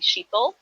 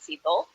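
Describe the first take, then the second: First: The name begins with an SH sound. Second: The name begins with a plain S sound. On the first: "lots of Indians that pronounce the H, so they'll call me Shito" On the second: "my name's pronounced Sito"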